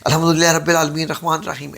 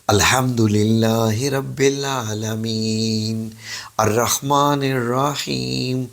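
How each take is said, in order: First: The words are recited quickly without pauses. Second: The words are recited slowly with pauses. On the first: The speaker calls it wrong. "जल्दी जल्दी से नहीं करने। ... ऐसे नहीं" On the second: The speaker calls it right. "ठहर ठहर से, ऐसे"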